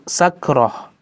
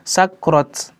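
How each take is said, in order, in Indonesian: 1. Kata itu diakhiri dengan bunyi h. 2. Kata itu diakhiri dengan bunyi t. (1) "Ketika berhenti maka suaranya huruf H" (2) "tidak mungkin kita di sini berhenti sakrat"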